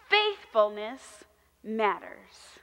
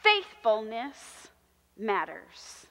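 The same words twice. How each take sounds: The two takes are said the same way.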